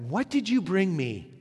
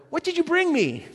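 First: Said in the usual way. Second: Put-on high, demanding kid voice; mock child asking for gifts; greedy child. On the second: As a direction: whine it like a grabby child. Child greeting returning parent.

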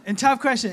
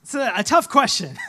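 First: Laughing repeat. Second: Said in the usual way. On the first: Real, not acted. Preacher repeating his own line to the congregation with a chuckle. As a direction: chuckle through the words.

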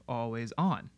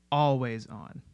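First: Always ON, with on stressed and a falling tune. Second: ALWAYS on, with always stressed and a falling tune. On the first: Teacher demonstrating the expected stress on on. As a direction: keep always light and land on on. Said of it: "instead of". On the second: Teacher demonstrating the Carters' stress on always. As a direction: hit always and let on drop. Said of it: "So we hear the emphasis". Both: Shown as a demonstration.

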